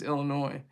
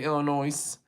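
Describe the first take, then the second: First: The final S is silent at the end. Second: The final S is pronounced at the end. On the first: The speaker calls it right. "but it's Illinois" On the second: The speaker calls it wrong. "some people say Illinois with the S"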